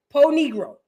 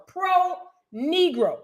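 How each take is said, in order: First: "Pro" with the r dropped, like "poe"; slipped pronunciation. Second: "Pro" slowly, with a clear r; corrected pronunciation. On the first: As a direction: say "Pro" as "poh", losing the r. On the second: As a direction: stretch out "Pro Negro" and sound the r in "Pro". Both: Real, not acted. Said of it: "Pro, I'm sorry".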